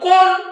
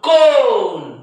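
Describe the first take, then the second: First: The o vowel is short. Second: The o vowel is long. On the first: The speaker calls it wrong. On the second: The speaker calls it right.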